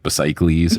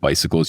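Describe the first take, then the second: First: It is pronounced in a Greek-like way. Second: It is pronounced the usual English way. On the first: "if it was Greek, it could be this" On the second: "words that aren't said in the Greek way"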